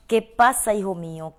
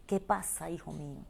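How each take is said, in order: First: Urgent call. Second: Put-on soft, falling call to a child, much softer; tender divine voice. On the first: Acted. God crying out to the lost child, loud and urgent. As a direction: call it out with pleading force. Same call repeated much louder. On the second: God calling the hurting listener, hushed and tender. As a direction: ask it gently like a loving parent.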